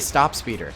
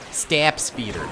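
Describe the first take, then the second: First: The first vowel sounds like the one in 'top'. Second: The first vowel sounds like the one in 'cat'. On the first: "so much easier to just say stop speeder" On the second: "It's like stap"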